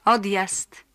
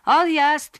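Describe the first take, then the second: First: Said in the usual way. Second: High, loud call; conductor's shout. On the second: Acted. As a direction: shout the departure to the whole bus. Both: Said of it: "powtórzył konduktor".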